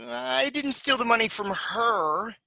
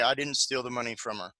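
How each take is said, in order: First: Higher, slow, steal lifted; stress on steal. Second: Quiet and level, no word stressed; flat monotone. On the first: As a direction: lean on steal. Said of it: "we're gonna say it with a particular intonation". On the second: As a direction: say it flatly with no focus. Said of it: "speaks very flatly". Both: Shown as a demonstration.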